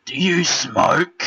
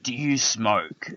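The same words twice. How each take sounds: First: High, loud, slow put-on voice of a stranger; strange man's voice. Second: Repeating the stranger. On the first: Imitating the weird man outside Aldi, high and loud. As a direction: drag out the odd stranger's question, loud and high. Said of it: "I'll try and get his voice right". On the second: Retold or imitated. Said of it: "he said".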